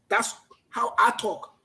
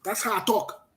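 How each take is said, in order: First: Slow, every word weighted; slow, deliberate repeat. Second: Said in the usual way. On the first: Real, not acted. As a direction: lay each word down slowly. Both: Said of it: "I talk like a man".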